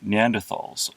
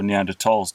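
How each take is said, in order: First: The middle consonant is a 'th' sound. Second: The middle consonant is a plain 't' sound. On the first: The speaker calls it wrong. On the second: The speaker calls it right.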